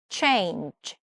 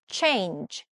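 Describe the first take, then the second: The two takes are said the same way.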